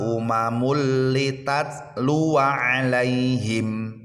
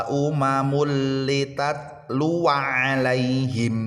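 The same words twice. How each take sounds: No difference in how they are said.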